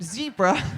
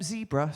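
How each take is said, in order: First: It is said with an American pronunciation. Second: It is said with a British pronunciation.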